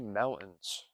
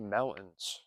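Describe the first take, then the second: First: The word is said quickly with reduced sounds. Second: The word is said quickly with reduced sounds.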